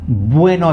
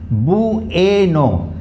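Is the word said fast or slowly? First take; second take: fast; slowly. First: The word is said quickly and run together. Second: The word is said slowly in three parts. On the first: "if I say it fast" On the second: "I'm pronouncing it in three parts"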